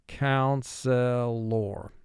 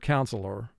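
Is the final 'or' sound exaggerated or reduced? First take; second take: exaggerated; reduced. First: The final 'or' sound is drawn out, exaggerated. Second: The final 'or' sound is said lightly, reduced. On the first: This helps with spelling the word. "you want to exaggerate the O R sound at the end" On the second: This is how it sounds in everyday speech. "in conversation, we pronounce the word counselor"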